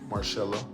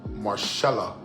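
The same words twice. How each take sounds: First: The middle consonant is an s sound. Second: The middle consonant is a sh sound.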